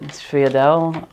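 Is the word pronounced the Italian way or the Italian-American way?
Italian-American. It is said with an Italian-American pronunciation. "there are a few different ways to pronounce it"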